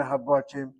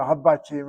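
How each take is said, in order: First: "Habatim" with a slightly rounded middle vowel; alternative pronunciation. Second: "Habatim" with an open "ah" in the middle syllable; Israeli pronunciation. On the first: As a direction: say "Habatim" as ha-baw-TEEM. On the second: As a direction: say "Habatim" as ha-bah-TEEM. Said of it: "I'm still speaking by Israeli Hebrew". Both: Shown as a demonstration.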